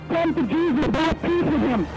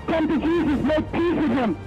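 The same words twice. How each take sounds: The two takes are said the same way.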